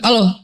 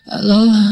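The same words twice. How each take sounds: First: It is said in a rough, harsh voice. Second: It is said softly, like someone just waking.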